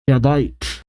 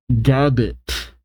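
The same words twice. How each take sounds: First: Gabite said as "GAB-bite"; corrected pronunciation. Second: Gabite said as "GAB-it"; first-try mispronunciation. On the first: Reader fixing an unfamiliar Pokemon name, corrected pronunciation. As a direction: say Gabite ending like the word bite. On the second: Reader stumbling on an unfamiliar Pokemon name, first-try mispronunciation. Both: Real, not acted.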